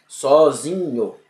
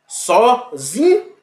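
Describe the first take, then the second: First: "Sozinho" drawn out with a plain "nho"; slow model word "Sozinho"; slow syllable reading. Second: "Sozinho" stretched very slowly, higher, "zi" rising strongest; slow, raised classroom demo of "Sozinho"; stressed syllable demo. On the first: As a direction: stretch "Sozinho" calmly to show the digraph. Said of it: "Porque eu não pronuncio". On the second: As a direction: drag out "Sozinho" so the stressed "zi" stands out. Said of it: "Então veja". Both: Shown as a demonstration.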